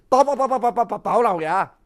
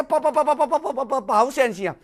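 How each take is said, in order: First: Fast stuttering begging, voice changed; stammering plea near tears. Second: Fast stuttering plea, close to crying; terrified official begging Bao Gong, stuttering on the edge of tears; stammering plea near tears. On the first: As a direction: stutter out the title, nearly weeping. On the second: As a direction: stammer the name in panic, almost sobbing. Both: Acted. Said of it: "规个人计要哭出来".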